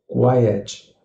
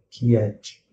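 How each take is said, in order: First: It is said with the English pronunciation. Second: It is said the way Portuguese speakers imagine. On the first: The speaker calls it right. "é a pronúncia correta" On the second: The speaker calls it wrong. "o que seria na imaginação daquele que fala português"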